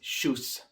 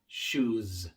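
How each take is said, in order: First: The final s is a voiceless hiss. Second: The final s is a voiced buzz. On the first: The speaker calls it wrong. "No es shoes" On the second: The speaker calls it right. "sino shoes"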